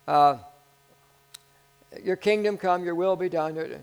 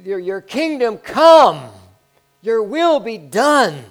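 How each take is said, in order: First: It is said lightly, without much weight. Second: It is said forcefully, with strong conviction. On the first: The prayer is not taken seriously. The speaker calls it wrong. "we can't say it with a kind of a lightness" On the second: The prayer is meant with full conviction. The speaker calls it right. "Powerful prayers for the kingdom to come"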